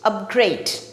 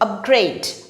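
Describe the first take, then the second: First: The stress is on the last syllable. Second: The same.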